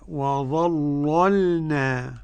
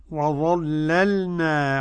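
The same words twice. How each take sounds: First: "وظللنا" drawn out slowly, first ل heavy and dark; thickened first lam. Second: Said in the usual way. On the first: Shown as a demonstration. Teacher demonstrates Warsh's reading, first ل of "وظللنا" thickened. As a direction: recite "وظللنا" slowly with a velarized first ل, the second light. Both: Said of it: "قرأ ورش بتغليظ اللام الأولى".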